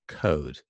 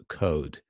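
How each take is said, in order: First: The vowel is said with little lip rounding. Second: The vowel is said with little lip rounding.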